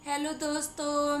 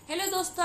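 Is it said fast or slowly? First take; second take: slowly; fast. First: It is said slowly and flatly. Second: It is said fast and excitedly.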